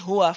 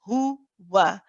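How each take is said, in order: First: The w sound is weak and not completed. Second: The w sound is complete with firm lip rounding. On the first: The speaker calls it wrong. "We don't say" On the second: The speaker calls it right. "give full attention to both the ha and the waw"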